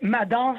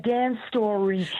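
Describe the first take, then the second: First: The name is said with French pronunciation. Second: The name is said with English pronunciation. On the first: It is the name used in Quebec. "au Québec, euh, je vais l'appeler" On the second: It is the name used in the United States. "un jour, quand je serai euh, au U S A"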